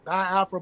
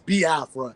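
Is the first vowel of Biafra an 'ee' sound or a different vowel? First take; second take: different vowel; ee. First: The first vowel is not an 'ee' sound. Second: The first vowel is an 'ee' sound. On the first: The speaker calls it wrong. "some people say Biafra because they don't really, you know, understand" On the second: The speaker calls it right. "but it's Biafra"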